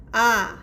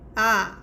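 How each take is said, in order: First: The pitch falls sharply. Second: The same.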